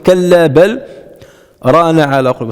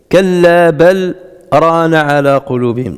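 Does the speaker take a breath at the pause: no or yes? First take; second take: yes; no. First: A full stop with a breath taken. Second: A brief stop with no breath taken. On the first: "si je fais le waqf" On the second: "j'ai pas respiré"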